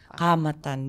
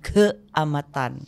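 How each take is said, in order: First: The word begins with a plain 'ka' sound. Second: The word begins with a 'kea' sound. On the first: The speaker calls it right. "Kamatan betul" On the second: The speaker calls it wrong. "dia bukan keamatan"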